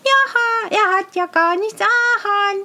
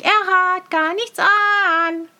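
First: Put-on high child's voice, stretching the last word an; child insisting on the truth, high; little child. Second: Slow, with weight on hat; child repeating firmly, slow, stress on hat. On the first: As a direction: sing out the truth like a small child. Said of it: "sagt ein kleines Kind". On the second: Acted. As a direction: spell it out deliberately, leaning on hat.

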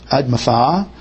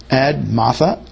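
First: Admatha stressed on the last syllable, admaTHA; Hebrew stress. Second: Admatha stressed on the first syllable, AD-matha; English stress. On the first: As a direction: land on the final syllable of Admatha, Hebrew style. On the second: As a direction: say Admatha with the weight up front, English style. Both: Shown as a demonstration. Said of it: "Hebrew likes to accent the last syllable".

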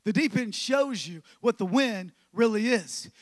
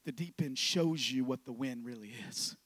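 First: Louder, fuller preacher's statement; ringing pulpit declaration; preached out. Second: Low, soft, understated delivery; soft low-key read; quiet statement. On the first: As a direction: proclaim it to the whole room. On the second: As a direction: say it softly, almost to yourself. Quiet first take of line. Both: Acted.

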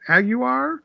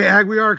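First: "Aguiar" said "AG-you-ar", rising as a question; "Aguiar" as "ag-YOU-ar", asking; unsure name. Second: "Aguiar" said "ag-WEE-ar"; "Aguiar" with a w sound, "ag-WEE-ar"; settled name. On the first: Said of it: "is it Ag". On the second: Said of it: "how they were saying it last night". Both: Real, not acted.

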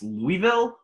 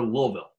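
First: "Louisville" with a clear "ee" in the middle; Louisville as LOO-ee-vill. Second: "Louisville" squeezed to two syllables, LULL-vill. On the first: Quizmaster offering a trick choice, "Louisville" said LOO-ee-vill. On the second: Quizmaster offering a trick choice, "Louisville" said LULL-vill. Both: Shown as a demonstration. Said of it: "pronounced Louisville or Louisville".

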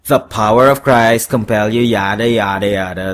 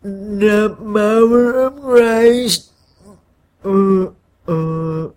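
First: Louder, dismissive recital without a stammer; horned devil's retort. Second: Slow, higher, congested stammer; stuffy-nosed stammer. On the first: Devil throws the exorcism line back at the man, dismissively. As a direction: rattle it off as a bored devil. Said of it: "the horned Tom replied". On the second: Scared man stammers exorcism lines at his horned double, stuffy-nosed. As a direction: stumble through it with a blocked nose. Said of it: "and stammered". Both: A narrator's reading.

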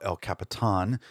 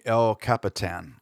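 First: "El Capitan" ending in Spanish-style "tahn"; alternative pronunciation. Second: "El Capitan" ending like English "tan"; anglicized pronunciation. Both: Shown as a demonstration. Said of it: "some people maybe call it".

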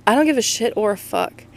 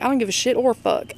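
First: Said in the usual way. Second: Southern accent. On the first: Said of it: "I keep saying". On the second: Shown as a demonstration. Showing her listeners her catchphrase, in a Southern accent. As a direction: say it like a Southern good ol' boy. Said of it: "I say it very Southern".

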